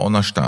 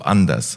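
First: It is said in Kurpfalz dialect. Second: It is said in Standard German.

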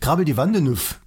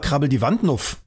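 First: The E before 'nuff' is pronounced. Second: The E before 'nuff' is dropped. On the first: "klingt doch viel, viel sächsischer" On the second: "Das E wird nicht mitgesprochen"

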